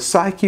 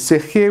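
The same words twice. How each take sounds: First: The word is pronounced the English way. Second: The word is pronounced the Greek way.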